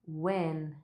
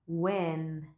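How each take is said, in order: Both takes have the same delivery.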